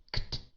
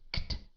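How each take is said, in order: First: The k and t are blended together. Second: The k and t are blended together.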